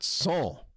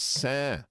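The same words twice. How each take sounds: First: It is said with an 'on'-like nasal vowel. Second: It is said with an 'an'-like nasal vowel. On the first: The speaker calls it wrong. "not Saint" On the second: The speaker calls it right. "S A I N T is pronounced Saint"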